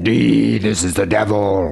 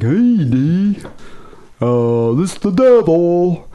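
First: Drawn-out heavy metal Satan voice; voice-emulator devil. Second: High, slow, goofy mock voice; hammed-up imitation of a hapless devil; Gilligan. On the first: Shown as a demonstration. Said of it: "voice emulator or something". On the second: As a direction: drag it out high and dopey. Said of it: "I was thinking Gilligan".

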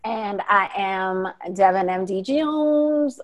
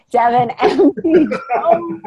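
First: Tired, slow name. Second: Name broken by a laugh; giggling mid-name; laughing through name. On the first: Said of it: "Oh, let's try that again". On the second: Laughing as he retries his sign-off name. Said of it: "let's try that again". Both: Real, not acted.

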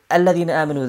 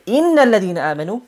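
First: Said in the usual way. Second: Emphatic "innal", then ease off; stress on INNAL. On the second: Shown as a demonstration. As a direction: lean hard on "innal" for emphasis. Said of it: "it's more emphasized".

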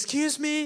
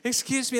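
First: High, loud call down the beach. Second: Loud, high repeated call. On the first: Wife calling after a lady walking away on the beach. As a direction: call after her to stop. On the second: Wife calling a second time after the walking lady. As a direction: call again to catch her attention. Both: Retold or imitated. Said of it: "And Eliana starts calling".

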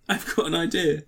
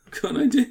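First: Said in the usual way. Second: High, bright excited take; suddenly thrilled at the idea. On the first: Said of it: "repeated line, second take higher". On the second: Pretend. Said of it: "repeated line, much higher".

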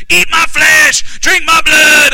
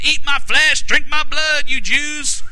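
First: Loud, high, drawn-out Southern holler; hammed-up shouted quote, word by word; Southern preacher shout. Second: Raised, higher preacher's delivery of a quote; hammed-up provocative declaration; exaggerated Jesus quote. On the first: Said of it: "It's that Southern thing". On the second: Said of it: "he didn't say it like that".

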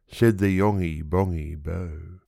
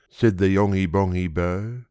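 The two takes are said the same way.

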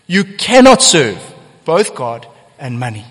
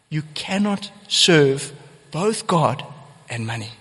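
First: "cannot" hit hard and much louder; stress on cannot. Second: "both" stressed, each word slowed right down; slow and deliberate. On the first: Preacher repeating Jesus's words, loud stress on cannot. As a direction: punch the word cannot. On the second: Preacher repeating Jesus's words, slow stress on both. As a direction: lay it out word by word, leaning on both. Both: Real, not acted.

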